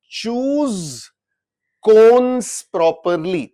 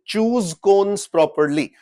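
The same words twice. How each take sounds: First: "choose" and "cons" said slowly and apart, the CH and K sounds laid bare; slow sounding out. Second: Said in the usual way. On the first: Shown as a demonstration. Teacher showing students the two first sounds, slowly. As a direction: drag "choose cons properly" out word by word. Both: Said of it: "पहला sound जो है इसका क्या हो गया".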